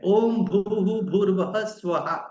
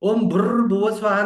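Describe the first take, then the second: First: The word after om ends without a rolled r. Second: The word after om ends in a long rolled r. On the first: The speaker calls it right. "ये उसका actual है।" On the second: The speaker calls it wrong. "वो भुर्र नहीं है, वो वो चिड़िया भुर्र कौवा भुर्र ऐसा वाला भुर्र नहीं है।"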